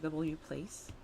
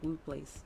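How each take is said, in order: First: The W is said as its letter name. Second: The W is said as a 'woo' sound. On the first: "is it pronounced like W place?" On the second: "Like the W is a sound"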